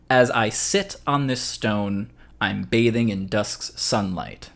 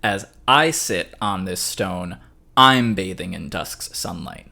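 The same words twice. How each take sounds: First: "sit" and "bathing" leaned on in a slow recitation; stress on SIT, BATHING. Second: "I" and "I'm" punched in a slow recitation; stress on I, I'M. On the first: Teacher shows where stresses can go, stress on "sit" and "bathing". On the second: Teacher shows moved stresses for a new affect, stress on "I" and "I'm". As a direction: recite slowly, hit "I" and "I'm" hard. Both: Shown as a demonstration. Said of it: "the stresses were in different places".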